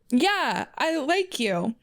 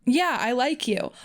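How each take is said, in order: First: Higher-pitched read of the line; lightly raised, high story voice; uncertain character voice. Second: Slower character read, near own pitch; lightly voiced, unhurried character line; Alois. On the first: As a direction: read it high, before knowing who speaks. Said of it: "Who is talking? Oh, Alois is talking". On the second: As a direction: take it slower and more settled. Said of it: "Oh, Alois is talking". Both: A narrator's reading.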